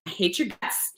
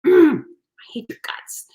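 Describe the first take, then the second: First: Softly muttered, half-hearted fury; retold fury, kept under the breath; mock fury. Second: Slow, whispered growl of mock fury; groan, then hiss it out slowly as pretend loathing. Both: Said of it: "So in my fury".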